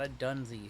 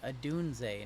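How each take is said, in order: First: The name ends with an 'ee' sound. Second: The name ends with an 'ay' sound. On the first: The speaker calls it wrong. "not a Dunzy" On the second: The speaker calls it right. "Say it with me"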